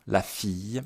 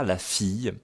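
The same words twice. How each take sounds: First: "fille" said fij, ending in a y sound; model pronunciation. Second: "La fille" again, fij with a y glide; model pronunciation. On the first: Teacher models "La fille" to class, fij ending. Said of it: "Attention à la prononciation". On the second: Teacher repeats "La fille" to students, fij ending. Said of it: "Je prononce un peu comme ça". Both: Shown as a demonstration.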